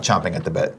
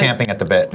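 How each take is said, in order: First: "chomping" said with an O as in chomp, softer; chomping pronounced. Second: "champing" said with a flat A as in champ; champing pronounced. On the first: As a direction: drop your voice and say "chomping" with the O of chomp. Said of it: "not chomping at the bit". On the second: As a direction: say "champing", the A of champ, not chomp. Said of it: "I now say champing at the bit". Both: Shown as a demonstration.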